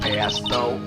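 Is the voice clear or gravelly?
gravelly. The voice is rough and gravelly. The speaker calls it wrong. "I had the wrong voice"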